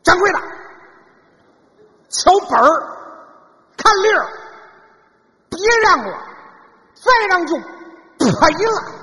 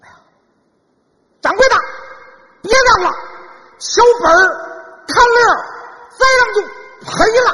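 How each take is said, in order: First: It is said at a lower pitch. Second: It is said at a higher pitch.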